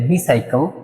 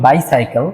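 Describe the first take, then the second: First: The first syllable is said like 'bi'. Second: The first syllable is said like 'bai'. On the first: "British অ্যাকসেন্টে বিসাইকেল" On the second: "আমরা বলি বাইসাইকেল"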